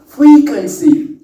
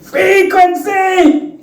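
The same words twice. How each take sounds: First: FREQUENCY drawn out and raised like a swear word; mock swearing. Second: Very high, long-drawn "Frequency!"; mock cursing yell. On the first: Speaker shows listeners their clean F word, drawn-out mock curse. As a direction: stretch "frequency", higher, as a stand-in expletive. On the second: Speaker shows off the substitute F word, high mock yell. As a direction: cry out "Frequency" like an expletive, stretched and high-pitched. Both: Shown as a demonstration.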